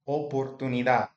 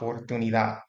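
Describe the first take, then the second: First: The first vowel sounds like 'oh'. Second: The first vowel sounds like 'ah'. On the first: The speaker calls it right. "the O in Spanish is always going to have the same sound. O, O" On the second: The speaker calls it wrong. "A lot of people, when they're learning Spanish, say something like oportunidad"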